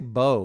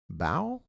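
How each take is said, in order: First: The vowel sounds like the one in 'dough'. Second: The vowel does not sound like 'dough'. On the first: The speaker calls it wrong. "I always want to say bow, like dough" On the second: The speaker calls it right. "I'm saying it right"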